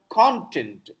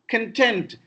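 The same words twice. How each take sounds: First: The stress is on the first syllable. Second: The stress is on the second syllable. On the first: It means subject matter. "Content is subject matter" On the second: It means happy or satisfied. "I'm very much content with your presentation. I'm happy"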